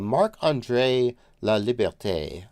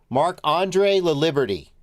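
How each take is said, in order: First: The name is said with a French accent. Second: The name is said with an English accent.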